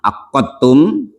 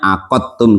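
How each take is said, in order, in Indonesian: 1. Bunyi q ditahan lama dan ganda. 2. Bunyi q pendek dan tunggal. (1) "watasdidi dan dengan tasdid akotum" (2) "bitakfifi dengan takfif artinya akotum"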